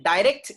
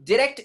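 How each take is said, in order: First: Long eye vowel in direct; American pronunciation. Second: Short i in the first syllable of Direct; British pronunciation. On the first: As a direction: direct as "die-RECT". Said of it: "is American sound". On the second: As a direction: Direct as "dih-RECT". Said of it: "is British sound". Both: Shown as a demonstration.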